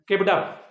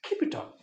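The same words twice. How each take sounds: First: It sounds dismissive and unimpressed. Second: It sounds encouraging with a rising tone. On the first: The speaker does not care about the achievement. The speaker calls it wrong. "సర్లే బా చూసినాము అన్నట్టు చెప్పకూడదు" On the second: The speaker genuinely encourages the listener. The speaker calls it right. "వీటిని ఎప్పుడు కూడా మనం rising టోన్లో చెప్పాలి. ఇలా"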